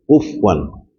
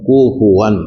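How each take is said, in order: First: The f is said without a following vowel. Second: The f is followed by a short u vowel. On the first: The speaker calls it wrong. "Ada juga orang baca cepat-cepat tu, jawab menjadi mati" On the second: The speaker calls it right. "Tak kena, kena kufuwan ahad"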